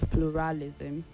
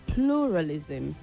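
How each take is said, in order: First: The stress falls on a later syllable. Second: The stress falls on the first syllable. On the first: The speaker calls it wrong. "not pluralism" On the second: The speaker calls it right. "The stress is on the first syllable"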